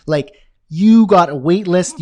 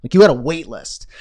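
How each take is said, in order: First: Louder and slower, like a boast; excited, louder. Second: Said in the usual way. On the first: Shown as a demonstration. Host to viewers, triumphant slow boast. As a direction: savor having a wait list. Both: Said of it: "you feel like this".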